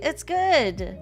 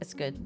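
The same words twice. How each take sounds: First: The word good is emphasized, sounding enthusiastic. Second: It is short and flat, sounding dismissive. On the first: It really is good. "you have like uh, emphasis on the good" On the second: It is not really that good. "the shorter is like it's it doesn't seem that good"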